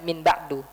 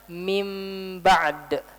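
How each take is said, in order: First: The n sound is fully clear. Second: The n becomes a blurred nasal m. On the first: The speaker calls it wrong. "Saya nggak baca min ba'du" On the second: The speaker calls it right. "Baca dengan ikhfa. Tapi sebelum diikhfakan, kita ubah dulu jadi mim"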